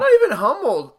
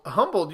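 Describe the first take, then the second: First: NOT said loud and high; "Not even humbled" with weight on Not; emphatic correction. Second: Said in the usual way. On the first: Shown as a demonstration. Correcting the word.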